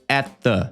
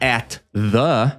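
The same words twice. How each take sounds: First: The two words are joined, the T sounds merged. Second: The two words are said separately, each sound distinct. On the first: "a gente junta os dois T's" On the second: "ao invés de falar at the"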